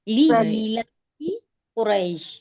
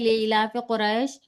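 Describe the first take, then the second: First: 'Ilaf' ends with an 'ee' vowel, and 'li' opens it. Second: 'Ilaf' ends without a vowel, and 'le' opens it. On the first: The speaker calls it right. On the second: The speaker calls it wrong.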